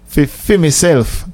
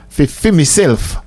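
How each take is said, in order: First: "Fi" said as Jamaican patois fi instead of for. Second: Said in the usual way. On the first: Shown as a demonstration. Host correcting himself into Jamaican patois "fi". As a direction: swap "for" for patois "fi", fi myself. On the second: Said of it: "Fi, fi myself".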